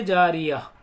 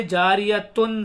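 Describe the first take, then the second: First: जारिया with t turned to light h; pausal ha ending. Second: जारियतुन with "-tun" fully sounded; जारियतुन unshortened, closing on n; full ending. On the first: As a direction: end जारिया on a breath of h. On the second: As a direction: pronounce t and final n in जारियतुन. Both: Shown as a demonstration. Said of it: "ता हा बन जाती है".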